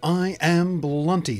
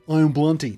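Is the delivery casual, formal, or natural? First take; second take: formal; casual. First: It is said formally and overpronounced. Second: It is said in a very casual way.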